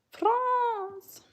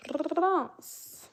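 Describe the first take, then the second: First: FRANCE high and drawn out, falling at the end; playful put-on pronunciation. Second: FRANCE with a long rolled French R; playful French pronunciation. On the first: Streamer echoing a viewer's country France, playfully high. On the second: Pretend. Streamer echoing a viewer's country France, R playfully rolled. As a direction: roll the R hard in FRANCE, pitched up.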